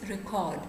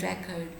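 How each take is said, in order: First: The stress is on the second syllable. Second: The stress is on the first syllable. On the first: The word is used as a verb. "If you are pronouncing it as a verb" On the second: The word is used as a noun. "if you are pronouncing it as a noun"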